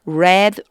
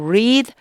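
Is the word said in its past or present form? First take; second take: past; present. First: It is pronounced as the past tense form. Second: It is pronounced as the present tense form. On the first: The action happened in the past. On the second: The action happens now or habitually.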